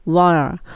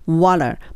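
First: The t is flapped and the words run together. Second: The t is flapped and the words run together.

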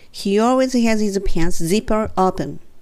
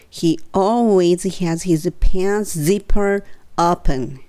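First: The sentence is spoken at a faster pace. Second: The sentence is spoken at a slow pace. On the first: "3 回目はちょっと早く" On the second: "2 回ゆっくり言って"

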